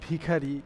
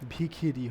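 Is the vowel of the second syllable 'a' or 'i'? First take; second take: a; i. First: The second syllable has the vowel 'a'. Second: The second syllable has the vowel 'i'. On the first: "একইভাবে বলা যায় ভিখারি" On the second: "ভিখারি শব্দটা হয়ে যায় ভিখিরি"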